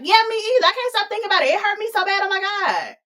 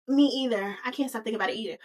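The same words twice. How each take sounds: First: High, hammed-up me-too outburst. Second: Soft, understated confession; Fifi. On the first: Y G peeping game and butting in, high and dramatic. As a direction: butt in high and gushing. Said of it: "Y G peeping game is like". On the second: Acted. Fifi locking eyes with McDreamy, softly confessing. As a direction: answer quietly in a natural pitch, dropping away. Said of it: "And she's like".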